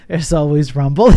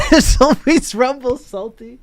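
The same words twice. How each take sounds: First: Said in the usual way. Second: Said through a laugh, higher and louder. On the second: Real, not acted. Streamer laughing while repeating a chat joke, laughing. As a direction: laugh out the line again, amused by the joke.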